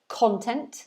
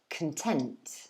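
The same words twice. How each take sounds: First: The stress is on the first syllable. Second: The stress is on the second syllable. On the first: It is the noun meaning material or subject matter. "you can pronounce it content. This is the noun" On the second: It is the adjective meaning satisfied. "the second syllable is stressed this time, not the first"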